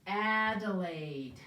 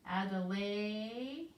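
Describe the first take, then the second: First: Drawn-out, syllable by syllable; slow sounding out. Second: Each part stretched out slowly; slow sounding out. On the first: Teacher sounds out the name for the class. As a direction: stretch the name slowly, Adelaide. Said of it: "there are two letter A's". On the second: Teacher repeats the name slowly to check. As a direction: sound out Adelaide slowly again. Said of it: "the short sound and its name". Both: Shown as a demonstration.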